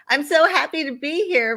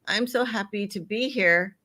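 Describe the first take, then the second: First: The voice sounds warm and enthusiastic. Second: The voice sounds flat and reluctant. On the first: The speaker is glad to be there. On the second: The speaker does not want to be there.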